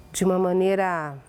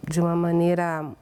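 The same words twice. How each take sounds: The two takes are said the same way.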